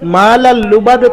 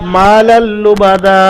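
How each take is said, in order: First: The phrase ends abruptly on a consonant. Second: The phrase ends on a lengthened vowel. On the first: The speaker calls it wrong. "সাকিন করলেন" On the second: The speaker calls it right. "এক আলিফ পরিমাণ টান দিয়ে পড়তে হবে"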